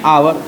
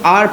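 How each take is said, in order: First: The word is said with two syllables. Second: The word is said with one syllable. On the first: "इसको पढ़ते हैं आवर" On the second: "कितने advance में इसको सिर्फ आर पढ़ देते"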